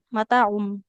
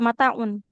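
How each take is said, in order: First: The word ends with an m sound. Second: The word ends with an n sound. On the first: The speaker calls it right. "mataum berubah jadi mim bunyinya" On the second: The speaker calls it wrong. "nggak mataun"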